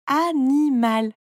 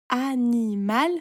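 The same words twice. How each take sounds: First: "animal" slowly as a, ni, mal, louder; three loud, drawn syllables in "animal". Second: "Animal" slowly as a, ni, mal, ending raised; three drawn syllables in "Animal", rising at the end. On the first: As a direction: stretch "animal" into three firm beats. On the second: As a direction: stretch "Animal" into three even beats. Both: A narrator's reading. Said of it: "tu coupes le mot en petites parties".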